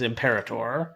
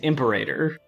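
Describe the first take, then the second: First: The word is said with a British pronunciation. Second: The word is said with an American pronunciation. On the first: "the British pronunciation is Imperator" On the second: "the American pronunciation is Imperator"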